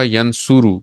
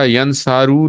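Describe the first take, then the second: First: The vowel after the s is a u. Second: The vowel after the s is an a. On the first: The speaker calls it right. "बल्कि ये होगा यनसुरू" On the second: The speaker calls it wrong. "ये नासारा यनसारू नहीं होगा"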